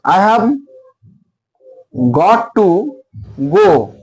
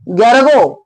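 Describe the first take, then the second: First: It is said slowly and in full. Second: It is said fast and reduced.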